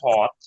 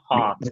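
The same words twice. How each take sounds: First: The vowel is short and rounded, British style. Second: The vowel is open, like the a in father. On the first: "ব্রিটিশে কি হট" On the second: "আর আমেরিকানে হট, কিছুটা আয়ের মতো।"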